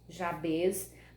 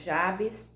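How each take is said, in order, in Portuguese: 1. O nome termina com som de z. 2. O nome termina com som de s. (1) "como tem um Z no final, então por isso que eu tô pronunciando Jabez" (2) "Tem uns que falam Jabes"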